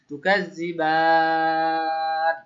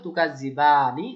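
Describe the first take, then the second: First: It ends on 'n' after a long 'ba'. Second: It ends on a vowel after a short 'ba'. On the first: "এখন বলবো তুকা জিবান" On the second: "তাহলে ছিল তুকা জিবানি"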